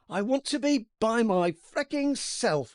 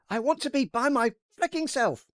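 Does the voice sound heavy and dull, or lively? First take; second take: heavy and dull; lively. First: The line is read in a heavy, dull voice. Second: The line is read in a livelier, brighter voice.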